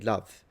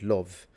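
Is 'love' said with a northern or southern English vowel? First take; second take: southern; northern. First: The word has a southern English vowel. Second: The word has a northern English vowel. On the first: "but people in the south do say love" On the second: "People in the north usually pronounce it love"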